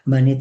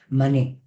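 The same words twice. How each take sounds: First: The stress is not on the final syllable. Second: The stress is on the final syllable. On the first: "Manet en castellano" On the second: "la E final debería acentuarse"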